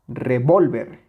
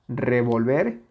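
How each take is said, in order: First: Revólver with a punched second syllable, then falling; stress on VOL. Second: Revolver rising onto its last syllable; stress on VER. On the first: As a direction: hit VOL hard in revólver. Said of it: "no es lo mismo revolver que revólver". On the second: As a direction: keep VOL light and stress the end of revolver. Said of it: "No es lo mismo revolver que revólver". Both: Shown as a demonstration.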